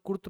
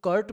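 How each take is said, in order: First: कुर्त with a short "oo" vowel and soft dental t; pronounced कुर्त. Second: कर्ट with an open "uh" vowel and hard retroflex T; pronounced कर्ट. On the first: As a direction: say कुर्त like "koort". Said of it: "कुछ लोग कुर्त पढ़ते हैं". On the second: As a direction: say कर्ट like English "curt". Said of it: "pronunciation का problem होता है, कुछ लोग कर्ट पढ़ते हैं". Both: Shown as a demonstration.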